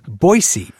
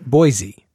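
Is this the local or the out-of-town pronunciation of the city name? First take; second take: local; out-of-town. First: The name is said the local way. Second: The name is said the out-of-town way. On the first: The speaker is from the city. The speaker calls it right. "the proper pronunciation of – your city is Boise" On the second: The speaker is a visitor from elsewhere. The speaker calls it wrong. "Not Boise"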